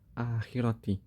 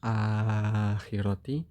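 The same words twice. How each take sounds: First: The long vowel is held for two beats. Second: The long vowel is held for four beats. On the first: "kalau kita kan bacanya biasanya qasr" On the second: "Jadi kalau tawasud gimana?"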